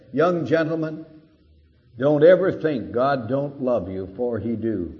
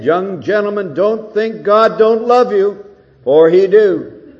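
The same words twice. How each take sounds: First: Lightly voiced plain-spoken preacher; a hint of old Moody pointing at the students; quoting Moody. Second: Louder, higher preacher's appeal; Moody repeating. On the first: Preacher retelling Moody to rowdy students, light impression. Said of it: "ungrammatical beginning". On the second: Retold or imitated. Moody pleading with the young men, loud and high. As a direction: drive the ungrammatical line home with force. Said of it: "said it again".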